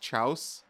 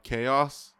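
First: The word begins with a ch sound. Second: The word begins with a k sound. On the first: The speaker calls it wrong. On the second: The speaker calls it right.

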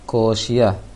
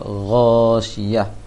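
First: The word begins with a hard k sound. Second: The word begins with a throaty gh sound. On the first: The speaker calls it wrong. "Tadi baca ko" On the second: The speaker calls it right. "seharusnya gho syiah"

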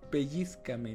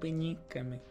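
First: The word has a z sound before the c. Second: The word has an n sound before the c. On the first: The speaker calls it right. "Pellízcame, no pellíncame" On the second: The speaker calls it wrong. "no pellíncame"

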